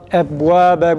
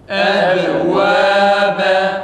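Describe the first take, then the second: First: The b is held closed with no echoing bounce. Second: The b is released with a clear echoing bounce. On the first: The speaker calls it wrong. "bunun yanlış telaffuzu ise kalkalesiz okumaktır ba harfini" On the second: The speaker calls it right. "Kalkale biraz daha net çıksın"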